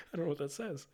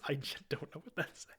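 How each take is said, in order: First: Laughing aside. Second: Soft unvoiced murmur; whispered aside. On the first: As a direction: say it with a laugh, amused. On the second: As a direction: mutter it to yourself, puzzled. Aside about script. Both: Real, not acted.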